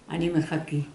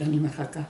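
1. המילה האחרונה נגמרת בצליל 'ee'. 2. המילה האחרונה נגמרת בצליל 'eh'. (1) "המילה הזאת נשארה לי" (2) "במקום להגיד אני מחכה"

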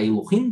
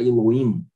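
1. O som do 'h' é claramente pronunciado. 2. O som do 'h' é omitido. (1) "em vez de você falar Elohim" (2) "se tira o som do re"

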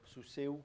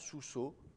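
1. Le mot finit par e puis u, sans h. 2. Le mot finit par une seule voyelle o. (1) "on souffle presque plus, à la fin, il finit par disparaître" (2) "Avec une simple voyelle"

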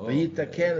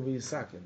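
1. Средний согласный — звук t. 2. Средний согласный — звук s. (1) "Вейитакен, это Кололан" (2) "Я говорю Вейисакен, да. ... я просто произношу, как произносит Ашкеназия"

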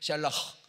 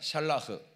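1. 마지막 h는 거칠고 목에서 나는 소리입니다. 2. 마지막 h는 부드럽고 가볍습니다. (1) "사실 흐 발음은 가래침을 뱉는 발음이어야 돼. 샬라흐 이렇게" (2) "우리는 뭐 그렇게까지 할 필요는 없습니다"

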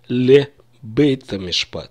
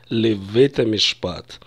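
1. Второе слово начинается со звука б. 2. Второе слово начинается со звука в. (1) "в обычной речи основная масса... скажут" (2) "Если вы ориентированы на высокий стиль, то вас учили правильно"

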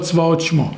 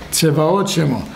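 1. אין תנועה אחרי העיצור הראשון. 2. תנועה קצרה באה אחרי העיצור הראשון. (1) "לא צבאות שמו" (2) "כל שווה בתחילה מנה, שוונה"

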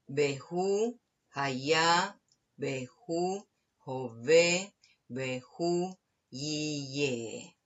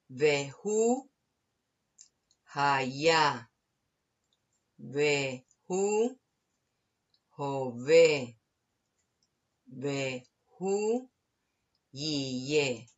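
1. La frase se lee a un ritmo más rápido. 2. La frase se lee a un ritmo más lento.

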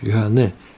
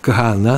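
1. Имя заканчивается на гласный звук 'e'. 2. Имя заканчивается на гласный звук 'a'. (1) "Сейчас говорят Кагане" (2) "Кагана, нужно сказать"

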